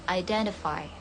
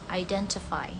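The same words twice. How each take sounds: First: The middle consonant sounds like a d. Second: The middle consonant is a clear t. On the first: "Kalau American, T-nya berbunyi mirip D" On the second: "Ini untuk British ya ... T-nya dibaca tetap T"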